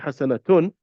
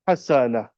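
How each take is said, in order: First: The word ends with a full -atun ending. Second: The word ends softly in an h sound. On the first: The speaker calls it wrong. "you wouldn't say hasanatun" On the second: The speaker calls it right. "Notice how I ended at حسنة"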